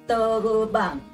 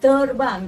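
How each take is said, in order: First: An extra vowel splits it into te-ru-bang. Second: It is said as two syllables, ter-bang. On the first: This is the local dialect form of the word. "dia sebut terubang" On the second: This is the standard form of the word. "Dia tak sebut terbang"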